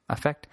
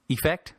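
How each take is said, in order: First: "effect" with an "uh" first vowel; alternative pronunciation. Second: "effect" with a clear "ih" first vowel; questioned pronunciation. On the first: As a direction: say "effect" as uh-FECT, like affect. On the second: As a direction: say "effect" as ih-FECT, rising like a question. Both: Shown as a demonstration. Trying two pronunciations of word.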